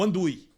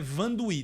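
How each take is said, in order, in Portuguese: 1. O nome começa com som de vogal. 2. O nome começa com som de V. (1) "o mais comum do americano ler e falar" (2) "Meu nome é Vandui"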